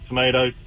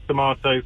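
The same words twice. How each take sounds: First: The middle vowel sounds like 'ay'. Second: The middle vowel sounds like 'ah'. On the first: The speaker calls it wrong. "not tomatoes" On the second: The speaker calls it right. "it is tomatoes"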